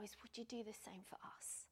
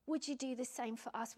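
First: A hushed, breathy whispered plea; whispered prayer. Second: Said in the usual way. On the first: Real, not acted. Preacher praying to the Lord, whispered plea. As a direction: breathe the question to God, barely voiced.

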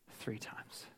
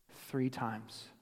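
First: Fading whisper. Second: Said in the usual way. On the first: Shown as a demonstration. Preacher whispering as Peter's memory fades. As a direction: drop to a bare whisper.

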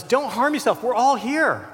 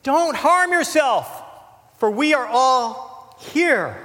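First: Retold yell. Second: High, slow, loud call into the dark; Paul shouting to the jailer, loud and urgent; loud cry. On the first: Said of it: "He yells out in the darkness". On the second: Acted. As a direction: cry out to stop him. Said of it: "Paul cried with a loud voice".

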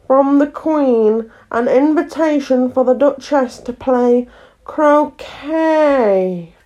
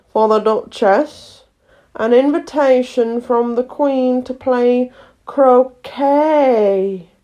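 First: Slow, grave and formal, words reordered; solemn footman. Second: Slow, formal and solemn announcement; solemn footman. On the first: Frog footman repeats invitation back, solemn and slow. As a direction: echo the invitation with ceremonial weight. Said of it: "repeated in the same solemn tone". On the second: Fish footman hands letter to frog footman, solemn and slow. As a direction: pronounce the invitation with great ceremony. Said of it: "saying in a solemn tone". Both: A narrator's reading.

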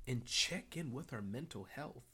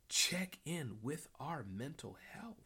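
First: Said in the usual way. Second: "Check" lifted, the rest slowed; slower repeat stressing check. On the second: Shown as a demonstration. Host repeating his point to the viewers, slow and deliberate.

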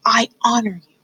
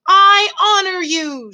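First: Fully whispered vow. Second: High, slow, loud declaration; shouted. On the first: Mouse in love to the princess, whispering. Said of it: "whispered Despreau". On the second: Mouse honouring the princess, shouting. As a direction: proclaim it in a drawn-out shout. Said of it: "shouted Despreau". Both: A narrator's reading.

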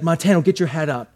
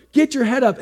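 First: Said in the usual way. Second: Sharp, higher mock yell at a student; retold teacher yelling. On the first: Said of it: "So he says". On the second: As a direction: bark the order like an angry teacher. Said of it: "he's yelling at me".

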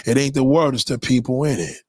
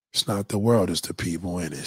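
First: Said in the usual way. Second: Drops to a low, soft murmur; a quiet, knowing repeat. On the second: Acted. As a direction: let it sink in softly. Repeats line, dropping his voice.

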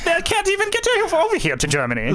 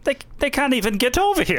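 First: Very high, hammed-up German accent. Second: High-pitched mock Hitler with German accent. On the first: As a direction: push the mock Hitler German accent into a squeak. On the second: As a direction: scoff in a lightly hammed German accent. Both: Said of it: "that's a German accent".

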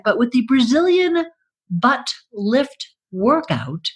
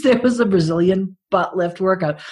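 First: Infomercial. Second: Said in the usual way. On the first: Pretend. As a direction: announce it like an ad. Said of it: "product name pitched". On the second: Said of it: "that was actually a thing".

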